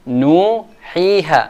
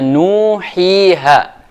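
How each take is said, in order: Both takes have the same delivery.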